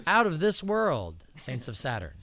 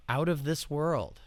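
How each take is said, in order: First: Hammed-up slogan. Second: Said in the usual way. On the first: Real, not acted.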